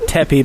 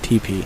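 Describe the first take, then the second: First: The word begins with a short 'teh' sound. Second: The word begins with a long 'tee' sound. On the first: The speaker calls it wrong. "I pronounced it Teppy" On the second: The speaker calls it right. "it's actually pronounced T P"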